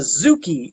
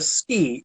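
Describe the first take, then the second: First: The word is said fully with two syllables. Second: The word is clipped to a single syllable. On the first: It names a punch. "it was a zuki if it was a punch" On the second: It names a thrust made with a staff. "it was a ski if you did it with a bow"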